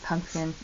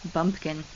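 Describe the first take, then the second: First: The word begins with a voiceless p sound. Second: The word begins with a voiced b sound. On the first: The speaker calls it right. "now I can say the word pumpkin instead of bumpkin" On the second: The speaker calls it wrong. "I couldn't say pumpkin. I would say bumpkin"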